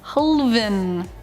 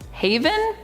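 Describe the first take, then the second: First: The name is said with three syllables. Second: The name is said with two syllables. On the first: The speaker calls it right. "I think it's Halavan" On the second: The speaker calls it wrong. "I always want to say it Haven, but that's definitely not right"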